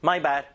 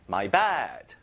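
First: "My" pushed, "bad" lighter; stress on my. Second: "bad" stressed, "my" light. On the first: Teacher shows the right way, "My" stressed. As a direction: hit "My", not "bad". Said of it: "my에 힘을 줘요". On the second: Teacher shows the wrong way, "bad" stressed. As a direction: lean on "bad", let "my" go. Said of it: "이렇게 안 합니다". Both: Shown as a demonstration.

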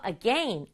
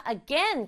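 First: "again" with second syllable rhyming with pen; teacher's own pronunciation. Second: "again" with second syllable rhyming with rain; alternative pronunciation. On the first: Teacher shows pupils her own variant of again, short e. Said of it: "선생님처럼". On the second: Teacher shows pupils one variant of again, ay vowel. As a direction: say "again" as a-GAIN, with a long ay glide. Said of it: "again이라고 발음하는 사람도 있고". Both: Shown as a demonstration.

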